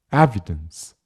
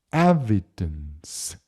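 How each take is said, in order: First: The word is said fast with syllables linked. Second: The word is said slowly, syllable by syllable. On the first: "이걸 빨리 이으면" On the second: "제가 천천히 먼저 한번 발음해 볼게요"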